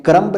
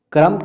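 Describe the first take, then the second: First: "क्रम्ब" with the final B sounded; wrong pronunciation. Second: "क्रम्ब" said as "krum", B silent; correct pronunciation. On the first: Teacher showing how not to say it, mispronounced. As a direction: release a clear B ending "क्रम्ब". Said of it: "नहीं कहते". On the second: Teacher showing how it is said, correctly pronounced. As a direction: end "क्रम्ब" on the M. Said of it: "कहते हैं". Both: Shown as a demonstration.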